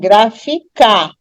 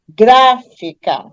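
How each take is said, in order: First: The stress is on the last syllable. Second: The stress is on the first syllable. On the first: The speaker calls it wrong. "Se eu der ênfase na última sílaba" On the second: The speaker calls it right. "se eu der ênfase na antepenúltima"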